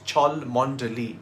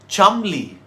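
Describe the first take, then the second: First: Every letter is sounded, giving several syllables. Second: It is shortened to two syllables, Chum-ley. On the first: The speaker calls it wrong. "you're completely wrong" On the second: The speaker calls it right. "It's pronounced Chumley"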